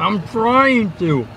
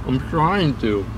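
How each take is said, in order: First: High, slow strained whine; whining with mouth full. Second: Slow mumble around caramel; slow, chewing through the words; chewing sticky toffee. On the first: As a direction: whine through sticky caramel. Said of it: "How are you still chewing". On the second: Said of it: "caramel in my mouth". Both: Real, not acted.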